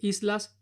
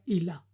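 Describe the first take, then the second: First: The s before the l is clearly pronounced. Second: The s before the l is dropped. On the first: "en vez de decir islas" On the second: "la S no se pronuncia al final de, de sílaba"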